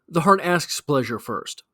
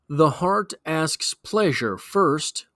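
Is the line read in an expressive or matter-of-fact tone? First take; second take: matter-of-fact; expressive. First: It is read in a flat, matter-of-fact tone. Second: It is read in an expressive, poetic tone.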